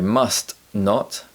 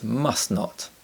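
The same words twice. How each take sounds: First: The t at the end of must is pronounced. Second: The t at the end of must is dropped.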